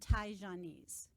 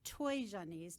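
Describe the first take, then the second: First: The first syllable sounds like 'tie'. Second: The first syllable sounds like 'toy'. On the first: This is the Mandarin way of saying the name. "if you're speaking with a Mandarin dialect" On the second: This is the local dialect's way of saying the name. "or a Toijanese dialect"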